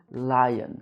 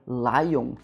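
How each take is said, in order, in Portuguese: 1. O N final é pronunciado claramente. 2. A terminação é nasalizada, sem um N claro. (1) "eu pronuncio o N no final da palavra" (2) "Você vê que eu não falo lion"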